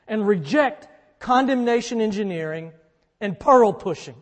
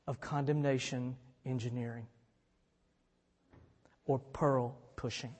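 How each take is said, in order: First: Loud, punchy preacher emphasis on condemnation and pearl; emphatic preaching. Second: Softer, lower recap of condemnation engineering and pearl pushing; hushed pastoral recap; quiet reflection. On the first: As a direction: drive each phrase home from the pulpit. Preacher hammering his coined phrases. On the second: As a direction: say it gently to the hurt listener. Preacher quietly recalls the phrases. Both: Real, not acted.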